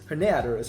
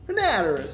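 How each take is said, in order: First: The name is said in a plain accent. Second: The name is said in a cowboy accent.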